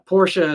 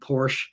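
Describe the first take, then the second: First: It is said with a German accent. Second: It is said with an American accent. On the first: The speaker calls it right. "I actually say it in the German pronunciation" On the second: The speaker calls it wrong. "like so many people here in the States do"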